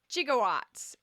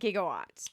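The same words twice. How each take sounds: First: The word begins with a soft J sound. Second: The word begins with a hard G sound. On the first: "the actors thought it was gigawatts ... because there's more J than G instances" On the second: "and not gigawatts"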